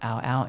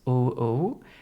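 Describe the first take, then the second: First: The name is said with an 'ow' vowel. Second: The name is said with an 'ooh' vowel. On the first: The speaker calls it wrong. "it is not Ow Ow" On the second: The speaker calls it right. "it is Ooh Ooh"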